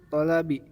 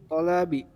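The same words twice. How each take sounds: No difference in how they are said.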